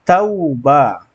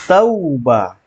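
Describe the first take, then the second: Both takes have the same delivery.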